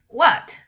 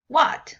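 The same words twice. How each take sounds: Both takes have the same delivery.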